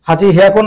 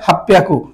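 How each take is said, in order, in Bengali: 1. দুটো আলাদা অংশ, সাধারণ h ধ্বনি সহ। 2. একটা শব্দ, দ্বিত্ব p ধ্বনি সহ। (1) "হাজি হিয়াকু না বলে" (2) "হাপ্পিয়াকু, এটা ব্যতিক্রম হয়েছে"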